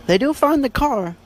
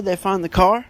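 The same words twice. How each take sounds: First: "do" lifted much higher in pitch; stress on DO. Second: Said in the usual way. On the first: Real, not acted. Podcaster assuring listeners about the book's ending, stress on "do". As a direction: hit the word "do" with a high, confirming emphasis. Emphatic repeat confirming the find.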